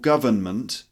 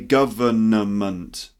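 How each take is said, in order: First: Three syllables, with a light n in the middle. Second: Four syllables, with a fully pronounced middle n. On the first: The speaker calls it right. "with a little N" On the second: The speaker calls it wrong. "So don't say government"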